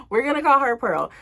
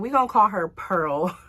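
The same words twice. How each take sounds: First: Laughing. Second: Said in the usual way. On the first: Real, not acted. Telling viewers her friend's alias, laughing. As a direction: repeat the alias through a laugh, higher.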